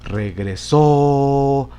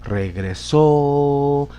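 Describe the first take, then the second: First: The stress is on the last syllable. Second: The stress is on the last syllable.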